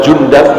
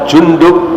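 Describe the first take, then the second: First: The second vowel is pronounced 'a'. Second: The second vowel is pronounced 'u'. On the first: "Bisa juga dibaca" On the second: "Namanya adalah Jundub bin Junadah"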